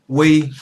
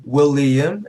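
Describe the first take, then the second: First: "William" chopped into three separate words, wee, lee, um; separate syllables. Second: Said in the usual way. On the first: Shown as a demonstration. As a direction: break "William" up, a pause after each syllable. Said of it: "they cut up their syllables into individual syllables". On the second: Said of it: "It's not multi-syllable".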